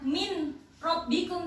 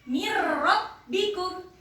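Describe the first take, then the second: First: The n is clearly pronounced before the r. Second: The n merges fully into a doubled r. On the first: The speaker calls it wrong. "nunnya jangan dibaca min robbikum" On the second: The speaker calls it right. "tapi dimasukkan ke ro"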